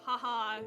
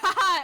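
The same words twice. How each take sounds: First: The laugh is small and casual. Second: The laugh is big and loud.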